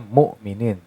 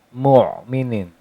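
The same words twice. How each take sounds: First: The middle consonant is a light glottal stop. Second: The middle consonant is a deep throat sound. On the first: The speaker calls it wrong. "Kalau pakai hamzah jadinya mu'minin" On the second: The speaker calls it right. "kalau menggunakan ain mu'minin"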